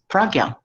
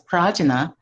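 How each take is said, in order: First: It is pronounced the way Nepali speakers say it. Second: It is pronounced the way Westerners say it. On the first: "our Nepali brothers and sisters, they pronounce this word as pragya" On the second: "some Westerners, they pronounce it as prajna"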